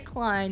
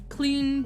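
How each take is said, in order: First: The vowel sounds like 'eye'. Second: The vowel sounds like 'ee'. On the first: This is the proper pronunciation. "he would not say Klein" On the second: This is how the character would say it. "He would say like Clean or something like that"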